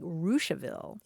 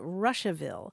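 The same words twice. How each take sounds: First: It is said differently from the spelling. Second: It is said as the spelling suggests. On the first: "it's actually pronounced like Russiaville" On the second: "is spelled Russiaville"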